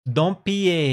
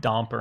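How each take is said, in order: First: The name is said with French sounds. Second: The name is said with plain English sounds. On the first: The speaker calls it right. "You gotta do the French version" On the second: The speaker calls it wrong. "who pronounced my last name Domper"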